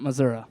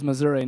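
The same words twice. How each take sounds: First: Missouri with the outsider ending, mə-ZUR-ah; wrong Missouri. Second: Missouri with the local ending, mə-ZUR-ee; right Missouri. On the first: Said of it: "It is Missouri". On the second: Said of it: "not Missouri". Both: Shown as a demonstration.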